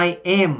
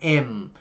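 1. 'I am' được nói thành hai từ đầy đủ. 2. 'I am' được rút gọn thành một âm tiết ngắn. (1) "Sẽ không nói là I am" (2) "mà nó am. Giống như chữ M của mình"

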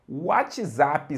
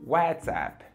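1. É pronunciado com a pronúncia do português brasileiro. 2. É pronunciado com a pronúncia do inglês americano. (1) "A gente inventa pronúncia para cada, cada coisa" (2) "na pronúncia correta é WhatsApp"

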